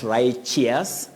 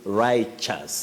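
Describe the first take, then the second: First: The ending sounds like the ending of courteous. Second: The ending does not sound like courteous. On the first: The speaker calls it wrong. "we don't say righteous just because of courteous ... not righteous" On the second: The speaker calls it right. "it's righteous"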